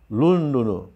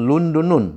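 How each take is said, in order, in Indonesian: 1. Kata ini diakhiri dengan vokal u biasa. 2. Kata ini diakhiri dengan u diikuti n. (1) "tidak bertanwin" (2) "bukan Lundunun"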